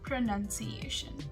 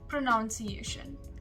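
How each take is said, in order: First: The second syllable does not sound like 'nounce'. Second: The second syllable sounds like 'nounce'. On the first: The speaker calls it right. "It is pronunciation" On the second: The speaker calls it wrong. "because of the word pronounce, many of us tend to get confused"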